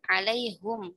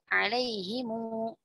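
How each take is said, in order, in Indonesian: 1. Kata ini berakhir dengan suku kata hum. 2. Kata ini berakhir dengan suku kata himu. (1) "ada yang membaca dengan alaihum" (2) "ada yang membaca dengan alaihimu"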